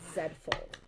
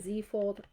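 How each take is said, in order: First: The letter is said as 'zed', Canadian style. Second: The letter is said as 'zee', American style.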